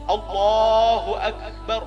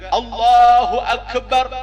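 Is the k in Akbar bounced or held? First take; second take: held; bounced. First: The k in Akbar is held without a bounce. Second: The k in Akbar is released with a bounce. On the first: The speaker calls it right. "Jangan dikalkalahkan" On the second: The speaker calls it wrong. "Jangan juga di dikalkalah ... ini salah salah"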